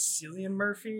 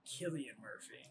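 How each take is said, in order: First: The first name starts with an S sound. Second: The first name starts with a K sound. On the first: The speaker calls it wrong. "I mispronounced his name. I said it was" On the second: The speaker calls it right. "It is actually"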